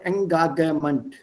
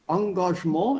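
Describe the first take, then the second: First: The word has a German pronunciation with hard G. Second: The word has its French pronunciation. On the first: The speaker calls it wrong. "Don't change it to uh, German. Then it will change. It will become Engagement. German G is G" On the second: The speaker calls it right. "wird so ausgesprochen, wie es im Französischen ausgesprochen wird"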